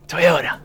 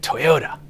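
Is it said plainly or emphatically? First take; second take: emphatically; plainly. First: It is said with strong, forceful emphasis. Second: It is said plainly, without extra force.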